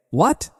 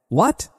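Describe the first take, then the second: First: A stunned, softer what, rising higher; shocked what. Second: A startled, softer what, rising higher; a mother's shocked gasp of a question; panicked what. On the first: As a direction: caught completely off guard. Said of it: "That shout shocked Alan". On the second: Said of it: "Diana's mother was also panicked". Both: A narrator's reading.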